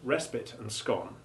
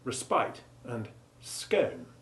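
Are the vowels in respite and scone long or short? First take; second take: short; long. First: The I and O vowels are short. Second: The I and O vowels are long. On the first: "with short I and O respectively" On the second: "with long I and O sounds"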